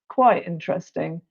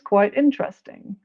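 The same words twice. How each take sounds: First: The tone is hesitant and unenthusiastic. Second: The tone is bright and enthusiastic. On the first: It is only somewhat interesting. "Well, mm" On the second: It is very interesting.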